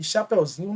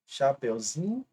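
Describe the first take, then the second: First: Said in the usual way. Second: "Chapeuzinho" drawn out slowly, syllable by syllable; syllable breakdown. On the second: Shown as a demonstration. Teacher shows students where the stress moved, "Chapeuzinho" slowly broken up. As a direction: stretch "Chapeuzinho" slowly, leaning on "zi". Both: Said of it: "ele não tá mais na última".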